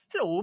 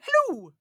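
First: It is said in a plain voice. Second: It is said in a Mrs. Doubtfire voice.

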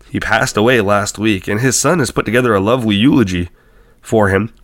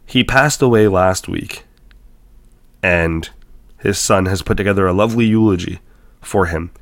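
First: It is read in an excited tone. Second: It is read in a plain tone.

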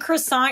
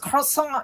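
First: Croissant is said with an American English pronunciation. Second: Croissant is said with a French pronunciation. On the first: This is the familiar everyday way of saying it. The speaker calls it wrong. "saying croissant your whole life" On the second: This is the supposedly correct original way of saying it. The speaker calls it right. "actually, your name is croissant"

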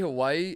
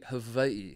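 First: The middle consonant sounds like an English w. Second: The middle consonant sounds like an English v. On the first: "When you say" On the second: "it's actually Hawaii. Did you know that? Like, it's a V"

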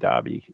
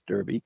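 First: It is said with a British pronunciation. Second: It is said with an American pronunciation.

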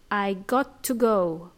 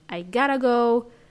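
First: The words "got to" are said fully and separately. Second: The words "got to" blur quickly into "gotta".

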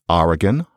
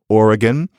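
First: The first vowel sounds like 'ah'. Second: The first vowel sounds like 'or'. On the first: This is the Upper East Coast way. "You say, as I do" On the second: This is how most of America says it. "Note, I can barely say them"

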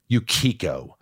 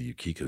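First: The name is said in an angry tone. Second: The name is said in a neutral tone.

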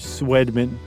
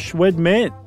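First: The name begins with a plain 'sw' sound. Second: The name begins with a 'shw' sound. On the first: The speaker calls it right. "That's how I'm doing it" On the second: The speaker calls it wrong. "I love that you added a C-H"

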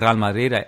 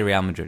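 First: The name is said with a Spanish accent. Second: The name is said with an English accent. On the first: "I've tried to kind of mix the Spanish accent" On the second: "I'll just say Real Madrid. It's easier"

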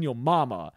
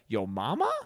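First: It sounds angry and pissed off. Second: It sounds astonished and questioning.

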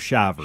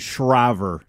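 First: No R sound follows the first consonant. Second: An R sound follows the first consonant. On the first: The speaker calls it right. "take the R out of it" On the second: The speaker calls it wrong. "You keep adding an R"

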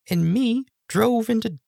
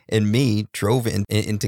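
First: It is said in a put-on girl voice. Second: It is said in his normal voice.

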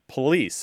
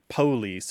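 First: The stress is on the second syllable. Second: The stress is on the first syllable. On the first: The speaker is a younger speaker. "They're more likely to say police" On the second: The speaker is an older Southerner. "the younger generations don't tend to say things like police"

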